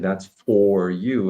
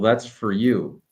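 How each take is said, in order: First: The word for is full and stressed. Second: The word for is weak and reduced.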